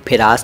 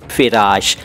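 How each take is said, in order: First: The word ends with a plain 's' sound. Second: The word ends with an 'sh' sound. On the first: The speaker calls it wrong. "फिरास नहीं बोला था" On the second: The speaker calls it right. "फिराश था"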